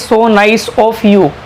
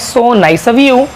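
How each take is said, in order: First: 'Of' is said with a clear f sound. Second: 'Of' is said without an f sound. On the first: The speaker calls it wrong. "अगर मैं आपको अभी ये नहीं सिखाता तो आप इसको बोलते हैं" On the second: The speaker calls it right. "यू से पहले कभी भी ओ एफ आए तो इसको बोलना है आओ"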